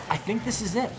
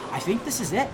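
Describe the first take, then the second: No difference in how they are said.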